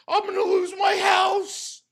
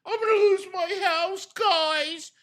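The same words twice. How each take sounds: First: Hammed-up crying shout, pitched higher; fake-sob it like a whiny victim; mock crying wail. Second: Whiny plea to the audience, pitched higher; mock whine. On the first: Mimicking Phil's begging to his audience, mock sob. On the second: Imitating Phil asking his viewers for pity, whiny. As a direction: mimic a begging streamer, hammed up.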